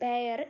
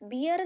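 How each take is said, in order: First: The vowel sounds like the one in 'bare'. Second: The vowel sounds like the one in 'beer'. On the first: The speaker calls it right. "Correct pronunciation ബെയർ" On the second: The speaker calls it wrong. "ബിയർ എന്ന് ഉച്ചരിക്കരുത്"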